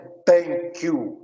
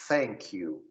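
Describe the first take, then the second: First: It begins with a plain t sound. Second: It begins with the tongue between the teeth. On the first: The speaker calls it wrong. "T H não é thank you" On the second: The speaker calls it right. "é thank you. Língua entre os dentes"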